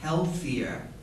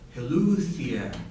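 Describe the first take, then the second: First: The word is pronounced in the standard way. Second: The word is pronounced in a distorted way. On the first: The speaker calls it right. "I just caught a word healthier" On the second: The speaker calls it wrong. "but it kind of sounded like healthier"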